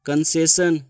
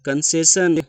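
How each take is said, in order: Both takes have the same delivery.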